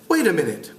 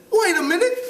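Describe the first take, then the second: First: Said in the usual way. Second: High, hammed-up British schoolboy; amateur British boy voice, pitched way up; British accent. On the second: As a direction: try on a piping British accent. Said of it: "try to do it with a British accent".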